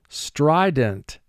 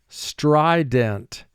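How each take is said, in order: The two takes are said the same way.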